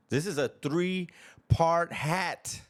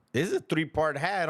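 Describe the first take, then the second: First: "three-part" drawn out slowly and leaned on; slow, weighty repeat hitting "three-part"; stress on three-part. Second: Said in the usual way. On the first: Shown as a demonstration.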